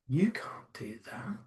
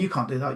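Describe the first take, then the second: First: It is said in a low, sultry voice. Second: It is said in a plain own voice.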